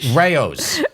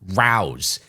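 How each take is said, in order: First: The name does not rhyme with house. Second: The name rhymes with house. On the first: The speaker calls it right. "and it's Rao's" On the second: The speaker calls it wrong. "It's not Rouse"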